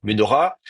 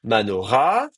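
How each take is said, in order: First: Ménorah with the first A reduced to a short "e"; reduced first vowel. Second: Manora with the accent landing on the last A, drawn out; stress on final A. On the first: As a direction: say Ménorah starting "me-", not "ma-". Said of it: "comme elle va tomber, on va mettre un cheval". (Ménorah, première voyelle réduite en « e ») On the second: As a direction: say Manora, leaning on the closing "ra". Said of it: "le A va prendre l'accent". (Manora, accent sur le A final) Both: Shown as a demonstration.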